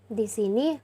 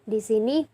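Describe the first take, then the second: Both takes have the same delivery.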